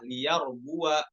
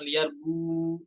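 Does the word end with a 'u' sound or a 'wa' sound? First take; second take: wa; u. First: The word ends in an open wa sound. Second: The word ends in a closed u sound. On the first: The speaker calls it right. "namun fathah" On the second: The speaker calls it wrong. "bukan liyarbu, bukan sukun"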